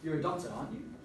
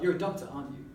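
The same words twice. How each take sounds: First: The voice rises at the end of the tag. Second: The voice falls at the end of the tag. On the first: The speaker is checking whether it is true. "You're kind of checking that information" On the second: The speaker is pretty sure it is true. "a descending intonation if you're pretty sure"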